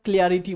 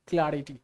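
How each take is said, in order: First: The first vowel sounds like in 'clear'. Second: The first vowel sounds like in 'cat'. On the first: The speaker calls it wrong. "हम लोग क्लियर क्लियर बोलते हैं तो क्लियरिटी बोल देते हैं" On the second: The speaker calls it right. "होता है क्या, क्लैरिटी क्लैरिटी"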